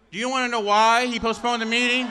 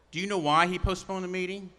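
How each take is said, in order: First: Louder and higher, baiting the crowd; raised teasing question. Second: Said in the usual way. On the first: Acted. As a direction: whip the crowd up with it. Rally speaker teasing the crowd.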